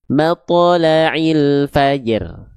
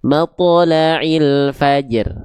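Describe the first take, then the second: Both takes have the same delivery.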